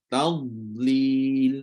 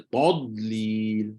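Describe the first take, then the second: First: The first syllable is thin, a plain light 'ta'. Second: The first syllable is thick, sounding like 'to'. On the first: The speaker calls it right. "dia tetap disebut dengan istifal, ta" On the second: The speaker calls it wrong. "Tapi kenapa ta tu tiba-tiba jadi to?"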